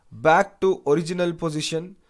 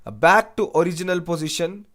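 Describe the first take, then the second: No difference in how they are said.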